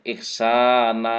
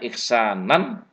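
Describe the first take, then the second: First: The word ends with a long 'a' vowel. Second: The word ends with a final 'nan' sound. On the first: This is the form used when stopping at the end. "karena diwakafkan jadi ihsana" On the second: This is the base form with tanwin. "Asalnya ihsanan"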